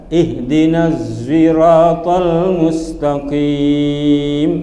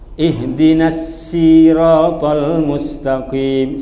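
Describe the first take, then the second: First: The s in sirat sounds close to z. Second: The s in sirat is plain and light. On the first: "seakan-akan baca zai"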